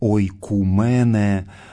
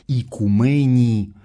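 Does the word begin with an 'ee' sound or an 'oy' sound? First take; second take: oy; ee. First: The word begins with an 'oy' sound. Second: The word begins with an 'ee' sound. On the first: This is the ancient reading of the word. "Это древнее античное произношение «ойкумене»" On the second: This is the later reading of the word. "перевод греческого слова «икумени»"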